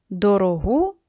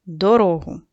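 First: Дорогу with the stress on final -ГУ; stress on last syllable. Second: Дорогу with the stress on -РО-; stress on middle syllable. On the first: Teacher reading out a stress pair, дорогу stressed on -гу. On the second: Teacher reading out a stress pair, дорогу stressed on -ро-. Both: Shown as a demonstration. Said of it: "відрізняються тільки наголосом".

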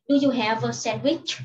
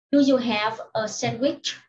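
First: "Do you have a sandwich" run together, "have-a" joined; linked quick reading. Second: "Do you have a sandwich" read carefully, "have" and "a" kept apart; careful, separated words. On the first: Teacher shows pupils linked reading of the question, quicker and joined. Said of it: "cô đọc nối như sau". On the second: Teacher reads question three to pupils, careful and word by word. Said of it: "Nếu như đọc nhanh". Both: Shown as a demonstration.

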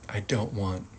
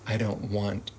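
No difference in how they are said.

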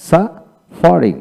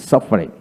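First: Slow suffering, split after the first syllable; broken into syllables. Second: Said in the usual way. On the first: Shown as a demonstration. Teacher taking learners through suffering, slow and broken up. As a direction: break suffering in two, slowly. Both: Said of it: "এইভাবে ভেঙে ভেঙে".

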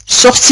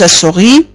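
First: "Sortis" with the T clearly sounded; correct SORTIS. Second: "سوري" as sortis with the T dropped; mispronounced SORTIS. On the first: Teacher correcting a student's French, correct "Sortis". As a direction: pronounce the T in "Sortis". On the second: Teacher showing a student the error, mispronounced "سوري". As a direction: say "سوري", sori, leaving out the T. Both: Shown as a demonstration. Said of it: "وليس سوري".

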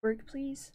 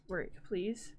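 First: Pleading. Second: Softer, lower begging; half-whispered plea to the computer; mumbled second plea; quiet plea. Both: Real, not acted. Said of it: "why doesn't this work".

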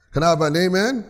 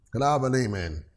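First: Raised, rousing call for an amen; livelier repeat call. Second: Said in the usual way. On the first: Real, not acted. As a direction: ask with more push, lifting "amen" at the end. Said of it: "you didn't say that so loud".

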